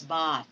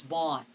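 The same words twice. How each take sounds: First: "bought" with an open ah; open "ah" vowel. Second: "bought" with a rounded aw-like vowel; rounder "aw" vowel. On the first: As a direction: say "bought" more like "baht". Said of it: "But this one is bought". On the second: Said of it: "You do not say love". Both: Shown as a demonstration.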